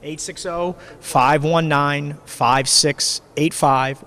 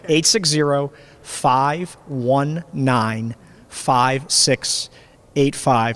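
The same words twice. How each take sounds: First: The number is read quickly. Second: The number is read slowly. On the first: The speaker calls it wrong. "he read it really quickly" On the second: The speaker calls it right. "I'll slow down"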